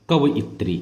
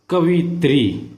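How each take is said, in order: First: कवइत्री with a clear separate इ after कव; correct pronunciation. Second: कवित्री said slowly as the wrong form; wrong spelling read out. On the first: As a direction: say कवइत्री, not कवित्री. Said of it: "इसका शुद्ध रूप है". (शुद्ध उच्चारण कवइत्री) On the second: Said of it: "सबसे पहले हम अशुद्ध पढ़ेंगे". (अशुद्ध रूप कवित्री धीरे से) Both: Shown as a demonstration.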